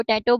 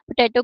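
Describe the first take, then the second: First: टैटो with the PO of potato dropped; weak syllable deletion. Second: Said in the usual way. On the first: Retold or imitated. Lecturer shows a child dropping syllables, टैटो without first syllable. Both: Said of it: "पोटैटो की जगह वो टैटो".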